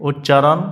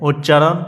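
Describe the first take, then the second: The two takes are said the same way.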